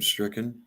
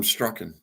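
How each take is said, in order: First: Stricken said with a short i, as in stick; corrected to stricken. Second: Strucken said with a short u, like struck; wrong word strucken. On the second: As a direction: slip out strucken with a u sound as in struck. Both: Shown as a demonstration. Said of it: "or I'm stricken".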